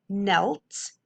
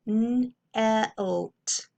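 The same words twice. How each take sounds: First: Said in the usual way. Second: "Knelt" broken into n, then elt; sounded out. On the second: Shown as a demonstration. Teacher decoding second syllable for pupils, sounded out in parts. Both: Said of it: "let's look at our second syllable".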